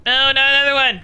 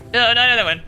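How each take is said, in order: First: Exasperated wail. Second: Said in the usual way. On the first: Real, not acted.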